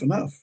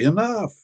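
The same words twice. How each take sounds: First: It is said lightly, as a quick stop signal. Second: It is said firmly, as a sharp scolding command. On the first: That is as much food as I want. "When somebody's dishing out food, sometimes they'll say" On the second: Stop that behavior now. "When somebody's talking too much or carrying on too much"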